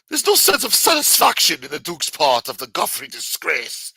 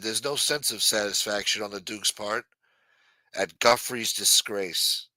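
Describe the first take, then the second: First: It is said in a put-on British accent. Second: It is said in the speaker's normal accent.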